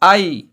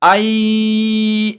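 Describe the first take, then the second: First: The vowel sound is said short and quick. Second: The vowel sound is drawn out long. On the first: The speaker calls it right. "जल्दी से पढ़ना है" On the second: The speaker calls it wrong. "नहीं पढ़ना है"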